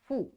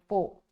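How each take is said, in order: First: The vowel sounds like a long u. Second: The vowel sounds like a rounded o. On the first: The speaker calls it right. "बल्कि फ़ा पेश फ़ू पढ़ेंगे" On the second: The speaker calls it wrong. "फ़ो पढ़ते हैं, जो कि मजहूल तरीक़ा है"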